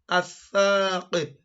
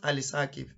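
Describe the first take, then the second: First: No l sound; the th is doubled. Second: An l sound is heard before the th. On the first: The speaker calls it right. "It is athaqib" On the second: The speaker calls it wrong. "It's not"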